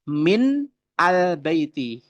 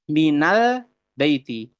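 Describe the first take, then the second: First: Min and al are said as separate words. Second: Min joins al with an a sound. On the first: The speaker calls it wrong. "bukan min al baiti" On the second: The speaker calls it right. "tetapi minal baiti"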